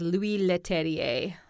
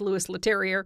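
First: The name is said with a French accent. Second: The name is said with an East Canadian accent.

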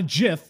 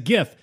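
First: The word begins with a soft j sound. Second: The word begins with a hard g sound. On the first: The speaker calls it wrong. "it's not named after peanut butter. It's not a GIF" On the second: The speaker calls it right. "It's a GIF"

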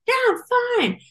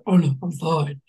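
First: It is said in a high-pitched voice. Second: It is said in a deep voice.

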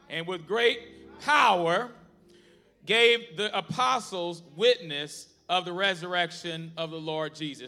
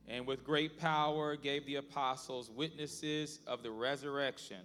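First: It is read with strong, powerful energy. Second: It is read with plain, ordinary energy.

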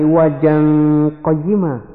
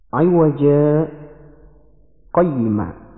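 First: The two words run together without a stop. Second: A brief silent stop separates the two words. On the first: The speaker calls it wrong. "seperti hukum aslinya" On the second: The speaker calls it right. "Di situ ada bacaan saktah"

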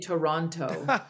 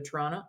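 First: All three syllables are said clearly and fully. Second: The word is clipped and run together, Canadian style. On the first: "We don't say Toronto" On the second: "the way that, you know, two Canadians would say to each other"

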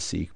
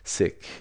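First: The vowel is long, like 'seek'. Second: The vowel is short, like 'sick'. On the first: This is the common everyday pronunciation. "Sometimes pronounced as Sikh" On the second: This is the traditional pronunciation. "because it's the correct pronunciation"

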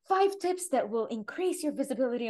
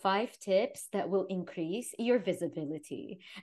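First: It is said in a bubbly, energetic voice. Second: It is said in a flat, monotone voice. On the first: "like bubbly" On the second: "she was so monotone"

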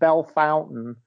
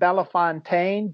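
First: The name is said like 'bell fountain'. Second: The name is not said like 'bell fountain'. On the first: The speaker calls it right. "I was told it's pronounced Bell Fountain" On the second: The speaker calls it wrong. "I pronounced it Bellefontaine"

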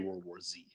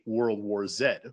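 First: The letter Z is said the American way. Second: The letter Z is said the British way. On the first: "They probably wouldn't say" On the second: "if we were walking around the streets somewhere in the UK"

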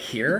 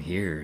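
First: The voice is pitched high in the register. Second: The voice is pitched low in the register. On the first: The speaker is excited. "this upper register, like, here" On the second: The speaker is doing a calm, deep impression. "way down here"

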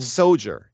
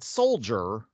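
First: The word is said without an l sound. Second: The word is said with an l sound. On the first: It is the character's own name form. The speaker calls it right. "It's spelled S-O-J-E-R" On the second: It is the ordinary word. The speaker calls it wrong. "not soldier"

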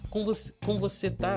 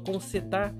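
First: The word você is said in full. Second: The word você is shortened to cê.

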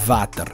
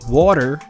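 First: The word starts with a buzzing V sound. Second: The word starts with a rounded W glide. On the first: The speaker calls it wrong. "but never water" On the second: The speaker calls it right. "it could be water"

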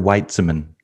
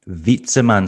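First: The name begins with a W sound. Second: The name begins with a V sound. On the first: The speaker calls it wrong. "am I pronouncing this right?" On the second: The speaker calls it right. "so V instead of W"

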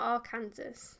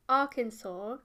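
First: The word ends with a pronounced s sound. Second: The word ends in a silent s, like 'saw'. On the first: The speaker calls it wrong. "not Arkansas?" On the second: The speaker calls it right. "is it pronounced Arkansas"

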